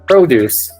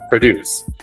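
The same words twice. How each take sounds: First: The stress is on the first syllable. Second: The stress is on the second syllable. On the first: It is a noun, fruit and vegetables. "Produce is like fruit, vegetables" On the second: It is a verb, to create something. "for the verbs, ... the emphasis is placed on the second part"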